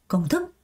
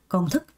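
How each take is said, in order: No difference in how they are said.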